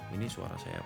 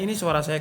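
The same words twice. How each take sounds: First: The voice is quiet and soft. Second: The voice is loud and forceful. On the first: "ini suara saya pelan" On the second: "ini suara saya kenceng"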